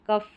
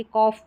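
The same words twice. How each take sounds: First: "कफ" as kuff, not kawf; short-uh pronunciation. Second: "कॉफ" as kawf, rounded vowel; aw-vowel pronunciation. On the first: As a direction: say "कफ" with a short uh vowel. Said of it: "कफ ना करके कॉफ भी करेंगे". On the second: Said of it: "कॉफ भी करेंगे तो भी correct". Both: Shown as a demonstration.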